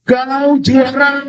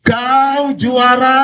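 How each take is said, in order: First: High, stretched-out long-distance call; storytelling shout. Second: High, very slow answering call; imitated echo. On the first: A narrator's reading. Father shouting again to the mountain, drawn-out shout. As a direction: call it out slowly on a high note. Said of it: "Ayahnya berteriak lagi". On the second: Mountain answers the father's second shout, imitated echo. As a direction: draw it out as a returning echo. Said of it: "Sana jawab".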